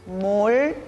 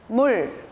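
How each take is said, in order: First: The word is said slowly. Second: The word is said faster.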